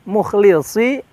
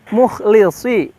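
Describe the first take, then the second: First: The middle consonant is a rough, scraping kh. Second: The middle consonant is a rough, scraping kh.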